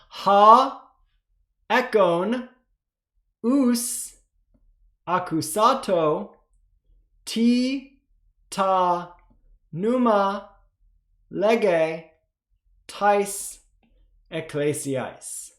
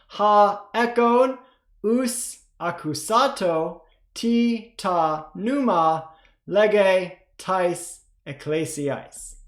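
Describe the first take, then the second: First: It is read slowly. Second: It is read fast.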